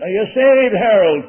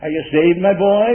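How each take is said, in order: First: Loud, high demand, imitating an Irish preacher; mock rough Irish preacher's shout; rough old Irishman. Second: The milder way of asking, still projected; an easy, friendly question from the pulpit; nice and easy. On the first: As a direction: fire the question across the whole room. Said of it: "In that rough old Irish voice". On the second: Shown as a demonstration. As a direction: ask it kindly, a little raised. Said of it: "wouldn't say it very nice and easy".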